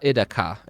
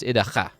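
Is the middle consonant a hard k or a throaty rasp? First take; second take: hard k; throaty rasp. First: The middle consonant is a hard k sound. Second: The middle consonant is a growling throat sound. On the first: The speaker calls it wrong. "it's not Idaka" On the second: The speaker calls it right. "K H is is the the the growling throat noise"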